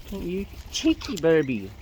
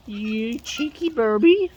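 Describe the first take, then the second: First: Said in the usual way. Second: Slow, drawn-out playful scold; drawn-out teasing. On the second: Real, not acted. Scolding a cheeky bird in slow playful tease.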